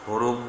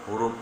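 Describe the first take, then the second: Both takes have the same delivery.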